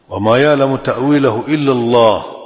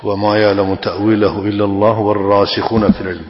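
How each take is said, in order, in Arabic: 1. يقف عند «الله» بوقف. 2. يمضي في القراءة دون وقف بعد «الله». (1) "هنا وقف" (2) "عدم الوقف على لفظ الجلالة التأويل"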